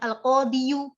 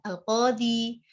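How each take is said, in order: First: The word ends with an added 'yu' sound. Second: The word ends on a bare 'i' sound. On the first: The speaker calls it wrong. "agak berat" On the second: The speaker calls it right. "ringan sekali"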